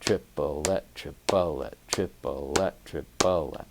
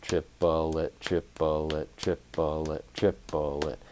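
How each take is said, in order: First: "Triplette" chanted with an accent on the first syllable; chanting the accent pattern; accented triplets. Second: "triplet" spoken evenly in time; plain even triplet count. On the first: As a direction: stress the start of each "Triplette" in rhythm. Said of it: "I was putting my accent on my leading hand". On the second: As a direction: count "triplet" steadily like a metronome. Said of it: "eighth note triplets being tapped out". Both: Shown as a demonstration.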